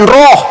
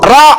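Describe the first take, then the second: First: The vowel is a rounded 'o' sound. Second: The vowel is an open 'a' sound. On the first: The speaker calls it wrong. "bukan roh" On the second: The speaker calls it right. "Huruf Ra bukan roh"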